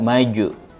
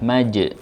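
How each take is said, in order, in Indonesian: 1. Pantulan setelah j adalah vokal 'u'. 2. Pantulan setelah j adalah 'e' tipis. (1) "tidak maju ya, terbawa kepada harokat setelahnya" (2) "suara pantulannya kepada bentuk tipis atau e"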